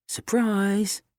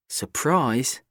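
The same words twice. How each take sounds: First: Higher, bright teasing reveal; spring it on him cheerfully; cheerful surprise. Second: Said in the usual way. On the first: A narrator's reading.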